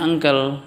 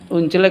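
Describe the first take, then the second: First: Said in the usual way. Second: "uncle" said as written, "oon-chlay"; spelling pronunciation. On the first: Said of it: "bacanya uncle". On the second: Shown as a demonstration. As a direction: misread "uncle" phonetically as "un-chleh". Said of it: "uncle kok bacanya uncle".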